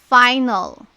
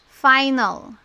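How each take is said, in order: The two takes are said the same way.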